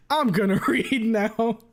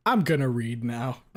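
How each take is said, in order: First: Higher, louder, slowed by laughter; laughing. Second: Said in the usual way. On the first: Real, not acted. Streamer trying to start reading the fic, cracking up. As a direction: fight through giggles to get it out.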